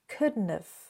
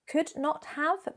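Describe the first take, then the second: First: It is squeezed into one shortened contracted form. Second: It is said as three separate full words. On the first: "becomes couldn't have" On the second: "Could not have becomes"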